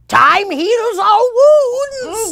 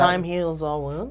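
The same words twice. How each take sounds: First: It is said in a zany character voice. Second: It is said in his normal voice.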